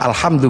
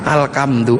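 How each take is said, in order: First: The middle consonant is an 'h' sound. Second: The middle consonant is a 'k' sound.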